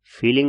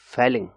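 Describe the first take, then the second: First: फीलिंग with a long ee, the wrong way; wrong vowel. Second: फेलिंग with a short e as in fell; correct vowel. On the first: Teacher showing students the mistaken pronunciation, long ee. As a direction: say फीलिंग stretching the ee like feeling. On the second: Teacher correcting students after the wrong take, short e. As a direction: say फेलिंग crisply, short e, falling tune. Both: Shown as a demonstration. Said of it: "फीलिंग नहीं है ये".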